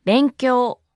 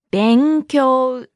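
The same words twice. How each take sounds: First: Said in the usual way. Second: Long, drawn-out syllables; slow model. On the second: Shown as a demonstration. Teacher repeats the word meaning study, slowly and deliberately. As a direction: stretch both halves of the word.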